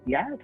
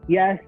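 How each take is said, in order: First: It is said with a questioning intonation. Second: It is said as a plain statement. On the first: The speaker asks whether this is correct. "you say yes with a different intonation, meaning is that right?" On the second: The speaker wants this item. "meaning I want to eat it"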